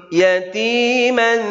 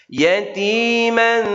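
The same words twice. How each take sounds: No difference in how they are said.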